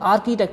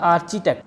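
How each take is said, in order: First: The middle consonant is a k sound. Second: The middle consonant is a ch sound. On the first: The speaker calls it right. "इसलिए इसको हमने आर्किटेक्ट बोला" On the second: The speaker calls it wrong. "ना कि आर्चिटेक्ट"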